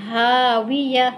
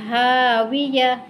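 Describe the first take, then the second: The two takes are said the same way.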